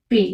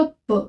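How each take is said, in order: First: "पे" with French é after the p; French pé with acute, "पे" like pay; accented PÉ. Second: "प" with a schwa after the p; French pe without accent, "प" like puh; unaccented PE. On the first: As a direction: say "पे" as pay, clear ay vowel. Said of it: "अगर इसके ऊपर मैं accent लगा". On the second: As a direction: say "प" as puh, short neutral vowel. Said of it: "इसका pronunciation होगा प". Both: Shown as a demonstration.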